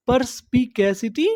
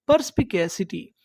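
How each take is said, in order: First: "परस्पिकैसिटी" in measured pieces, ending on a rise; broken into syllables. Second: Said in the usual way. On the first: Shown as a demonstration. Teacher prompting learners with the word, syllable by syllable. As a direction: say "परस्पिकैसिटी" part by part, pitch lifting at the end. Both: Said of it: "टुकड़ों में तोड़-तोड़ के पढ़ना है".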